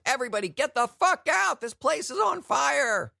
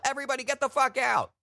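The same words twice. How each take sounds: First: High, loud frantic shout, slowing at the end; loud retold alarm yell; mock panicked yell. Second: Mock yell. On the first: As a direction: bellow it like a Santa ripping off his beard. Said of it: "and said". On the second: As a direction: bellow it like a Santa fleeing a fire. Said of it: "rip off your beard and yell".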